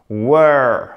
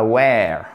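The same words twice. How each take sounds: First: WERE said "wur", long central vowel. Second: WERE said like "where"; wrong vowel. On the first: Teacher modelling the correct verb, "wur". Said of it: "Were et pas were". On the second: Teacher showing the mistake to avoid, "wair". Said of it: "et pas were". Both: Shown as a demonstration.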